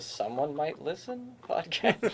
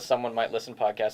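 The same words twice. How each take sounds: First: The voice rises at the end like a question. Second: The voice falls at the end like a statement. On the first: It is asked as a question. The speaker calls it right. "We should have a, a, a question mark" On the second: It is a plain name. The speaker calls it wrong. "I don't think we should just call it the Someone Might Listen podcast"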